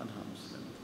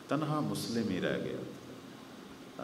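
First: تنہا مسلم تھا breathed out as a whisper. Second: Softer and slow, sinking with grief; slow and quiet. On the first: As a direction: drop to a grieving whisper on تنہا. (سرگوشی میں تنہا مسلم تھا) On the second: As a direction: let it fall away slowly and softly. (دھیمی، آہستہ، غمگین آواز) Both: Acted.

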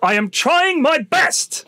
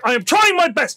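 First: Slow, strained, put-upon plea; imitating the driver. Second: Quicker, curt, falling fed-up reply; imitating the driver. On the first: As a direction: drag it out like a harassed driver at his limit. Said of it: "That's what he says". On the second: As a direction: snap it back, done with the argument. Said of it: "He was like".

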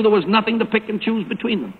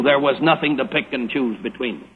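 First: Said in the usual way. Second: Dropped lower, softer, with settled finality; from a divine point of view. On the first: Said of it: "From a human point of view". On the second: Shown as a demonstration. Preacher recasting the line from God's view, lower and softer. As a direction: lower and softer on the second take. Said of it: "from a divine point of view".

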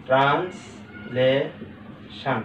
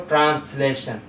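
First: "translation" very slow, as trans, লে, শান; syllable by syllable. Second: Said in the usual way. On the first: Shown as a demonstration. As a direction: clear pauses between the three parts of "translation". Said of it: "একসাথে আমরা বলতে পারছি trans". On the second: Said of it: "একসাথে আমরা বলতে পারছি".

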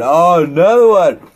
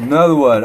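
First: Louder, higher hype call; loud catchphrase. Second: Said in the usual way. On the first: Shown as a demonstration. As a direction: shout it like a hype man.

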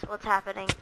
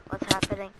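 Both takes have the same delivery.

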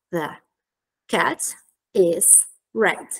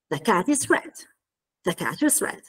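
First: Very slow, a pause after each word. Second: THE and IS short and light, CAT and RED full; reduced function words. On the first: Teacher giving the model answer, word by word. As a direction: separate THE, CAT, IS, RED completely. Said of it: "questa è la risposta". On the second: Teacher modelling the answer's pronunciation, connected speech. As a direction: link "The cat is red" into one quick phrase. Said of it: "parole che invece vengono ridotte". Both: Shown as a demonstration.

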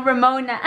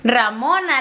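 First: Put-on "Ramona" with an English accent, amused. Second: "Ramona" in Spanish, pure A and O; Spanish pronunciation. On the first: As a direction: mimic the English-accented "Ramona", breaking into a laugh. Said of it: "con el acento en inglés". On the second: Shown as a demonstration. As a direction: correct someone with a Spanish "Ramona", rah-MO-na. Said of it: "Alía, no Ramona".

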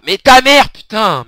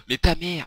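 First: Much higher and louder, stress on ta; exasperated yell. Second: Said in the usual way. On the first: Real, not acted. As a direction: burst out in frustration at the game. Rage au jeu vidéo. (cri exaspéré)

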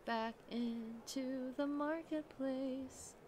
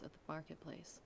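First: Very slow, hushed emphasis; slow and dramatic. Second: Said in the usual way. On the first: A narrator's reading. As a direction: draw it out ominously.

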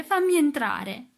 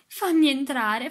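First: High, slow, loud and rising wail; keen it out through tears; ghostly sobbing cry to come in; sobbing plea. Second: High, slow, loud sobbing plea. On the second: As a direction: beg through sobs to be let in. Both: A narrator's reading. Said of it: "disse tra i singhiozzi".

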